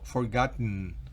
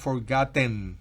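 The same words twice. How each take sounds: First: The last syllable has a weak, reduced vowel. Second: The last syllable has a full, clear E vowel. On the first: The speaker calls it right. "No es una E tan clara" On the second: The speaker calls it wrong. "No es forgotten"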